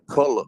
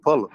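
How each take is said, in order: First: "puller" said PULL-er for pillow; "puller", the home way of saying pillow; Southern "puller". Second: "puller" with a PULL-er sound for pillow; "puller", pillow the way back home says it; "puller" meaning pillow; Southern "puller". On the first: Retold or imitated. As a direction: say "puller" where others say pillow. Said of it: "She meant pillow". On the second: Shown as a demonstration. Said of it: "that's how we said".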